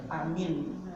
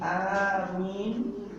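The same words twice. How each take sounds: First: The opening vowel is said short. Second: The opening vowel is drawn out long. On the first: "bil qasri atau bitakhfif dengan diperpendek" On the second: "bil madji dengan dipanjangkan"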